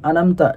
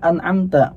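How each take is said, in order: First: The ain consonant in the middle is dropped. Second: The ain consonant in the middle is clearly heard. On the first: The speaker calls it wrong. "hilang huruf ainnya tuh" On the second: The speaker calls it right. "Padahal mestinya an'amta"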